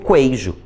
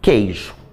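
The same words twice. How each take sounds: First: The word begins with a kw sound. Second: The word begins with a plain k sound. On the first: The speaker calls it wrong. "eu não digo queijo" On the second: The speaker calls it right. "digo queijo"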